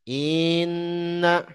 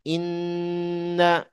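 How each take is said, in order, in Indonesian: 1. Vokal pembukanya dipanjangkan dengan panjang. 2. Vokal pembukanya pendek dan langsung. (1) "Yang salah terseret hamzahnya" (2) "Inna itu yang benar"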